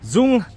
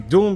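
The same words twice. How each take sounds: First: The name is said with a Vietnamese pronunciation. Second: The name is said with an English pronunciation. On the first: This is how locals say the name. "as they pronounce it in Vietnamese" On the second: This is an easier form for foreigners. "let's say Dung because we're actually Westerners"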